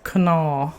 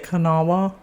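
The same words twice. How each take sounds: First: It is said the local Huntington/Charleston way. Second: It is said the way outsiders say it.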